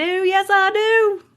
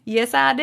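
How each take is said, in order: First: Higher, slow and stretched out; a teasing, stretched yes; drawn-out sing-song. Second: Said in the usual way. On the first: Shown as a demonstration. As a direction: draw it out, high and playful. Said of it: "repeats it drawn out and high". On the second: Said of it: "repeats the line".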